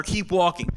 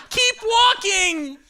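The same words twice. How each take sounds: First: Measured slogan read, falling at the end; understated advert tagline. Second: Very high, drawn-out holler; stretched, high-pitched acted urging; urging shout. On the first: Acted. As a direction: say it as a commercial's sign-off. Voicing the ad's slogan. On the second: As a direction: yell it slowly to a straggling friend. Urging a drunk friend home at night.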